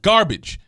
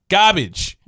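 First: The word is said in a plain accent. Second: The word is said in a New York accent.

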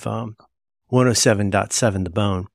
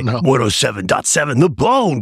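First: It is said in a plain, ordinary speaking voice. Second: It is said in a hyped radio-announcer voice. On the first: The speaker calls it wrong. "Except you don't say it like that" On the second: The speaker calls it right. "You say"

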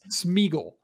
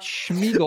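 First: The name begins with an "s" sound. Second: The name begins with an "sh" sound. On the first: The speaker calls it right. "S-M. ... Smeagle" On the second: The speaker calls it wrong. "It's not Schmeagle"

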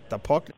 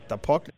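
Both takes have the same delivery.

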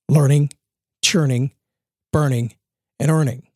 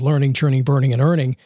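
First: The phrase is said slowly and deliberately. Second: The phrase is said at normal speed.

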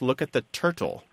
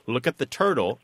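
First: The T in turtle is a crisp, fully released T. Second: The T in turtle is a quick D-like flap. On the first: The speaker calls it wrong. "he kept correcting his family in kind of an awkward way" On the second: The speaker calls it right. "They would say"

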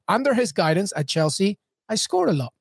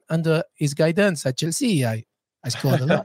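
First: It is said in the speaker's normal accent. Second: It is said in a put-on French accent.

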